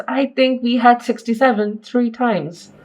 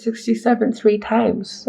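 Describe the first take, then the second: First: Said in the usual way. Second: "sixty-seven three times" spelled out slowly, every word weighed; slow emphatic repeat. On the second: Shown as a demonstration. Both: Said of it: "Seven years".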